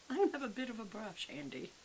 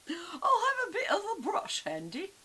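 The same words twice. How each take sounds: First: Said in the usual way. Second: Much higher, louder whiny sing-song repeat. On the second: Pretend. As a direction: whine it like a spoiled child. Repeats line then whines it.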